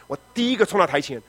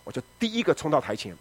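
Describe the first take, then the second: First: 第一个 with 一 lifted and punched; stress on 一. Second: Said in the usual way. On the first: Retold or imitated. Pastor stressing he was first to the altar, emphatic. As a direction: lean hard on 第一个.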